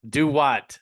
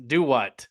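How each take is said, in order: No difference in how they are said.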